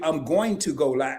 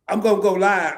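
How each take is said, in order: First: Going to is said in full. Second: Going to is reduced to gonna. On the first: The speaker calls it right. "it's supposed to be" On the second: The speaker calls it wrong. "I'm gonna G O G O N N A"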